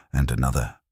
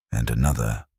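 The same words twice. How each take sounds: The two takes are said the same way.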